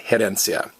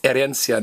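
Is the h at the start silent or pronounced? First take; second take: pronounced; silent. First: The word starts with a sounded h. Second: The word starts with a silent h. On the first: The speaker calls it wrong. "not herencia" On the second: The speaker calls it right. "it's herencia"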